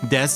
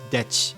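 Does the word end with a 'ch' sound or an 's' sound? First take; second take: s; ch. First: The word ends with a plain 's' sound. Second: The word ends with a 'ch' sound. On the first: This is the ordinary pronunciation. "everybody knows this one" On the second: This is a childish speech impediment. "the way that she pronounces it is chi"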